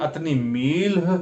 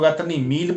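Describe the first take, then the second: First: The last word ends with a light h sound. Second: The last word ends without an h sound. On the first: "हल्का से आखिरी में हे लगाते हैं" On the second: "बहुत से लोग अतनी मील बोलते हैं"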